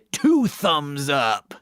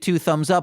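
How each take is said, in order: First: The tone is smiling and enthusiastic. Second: The tone is flat and unenthusiastic.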